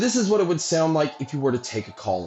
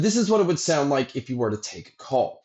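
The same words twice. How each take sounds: First: The voice is heard over crowd noise. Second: The voice is heard with quiet surroundings. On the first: "the mic test for the crowd noise being played" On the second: "here is a mic test using the Run Free Lite"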